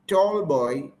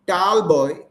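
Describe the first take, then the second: First: The vowel sounds like 'or' as in door. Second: The vowel sounds like 'ar' as in car. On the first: The speaker calls it right. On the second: The speaker calls it wrong.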